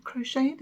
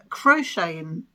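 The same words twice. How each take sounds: First: "Crocheting" said higher with a rising, unsure tune; questioning rise. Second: Said in the usual way. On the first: Shown as a demonstration. She checks with viewers whether "Crocheting" is the word, with a rising tune. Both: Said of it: "is that the proper term?".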